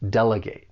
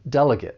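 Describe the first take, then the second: First: The last syllable has a long A sound. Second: The last syllable has a weak, short vowel. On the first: It means giving tasks to other people. "With the verb, you're going to use that long A sound" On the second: It names a person who represents others. "that third syllable is pronounced differently when you say the noun"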